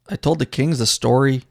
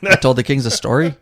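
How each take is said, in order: First: It is said in his own plain accent. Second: It is said in a put-on Irish accent.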